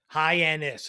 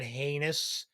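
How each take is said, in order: First: The name does not sound like 'heinous'. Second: The name sounds like the word 'heinous'. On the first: The speaker calls it right. "It's not hard" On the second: The speaker calls it wrong. "He called it heinous, like a heinous act"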